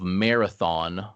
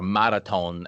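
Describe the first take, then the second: First: It is said with an English pronunciation. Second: It is said with a Greek-style pronunciation.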